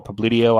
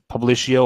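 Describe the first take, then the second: First: Publitio with a "tee-oh" ending; alternative pronunciation. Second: Publicio with a "shee-oh" ending; unsure pronunciation. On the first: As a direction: say Publitio with a t, not sh. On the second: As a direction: say Publicio as "pub-LISH-ee-oh". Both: Real, not acted. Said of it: "I don't know how to pronounce that".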